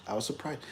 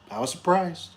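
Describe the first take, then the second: First: Much softer echo of surprised; murmured repeat. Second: Said in the usual way. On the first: Real, not acted. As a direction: let it fade almost under the breath.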